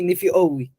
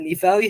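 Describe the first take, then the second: First: The middle sounds like 'fee-oh-wee'. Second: The middle sounds like 'fa-wee'. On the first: "It will gonna be Nifiowi. How is this possible?" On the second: "the word for uh, Nifawi heavens"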